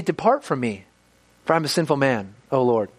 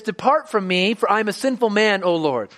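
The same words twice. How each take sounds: First: Humble lament. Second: Said in the usual way. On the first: Shown as a demonstration. Preacher voicing Peter confessing before Jesus, lower and humbled. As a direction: say it bowed down, ashamed. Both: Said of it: "Why would he say".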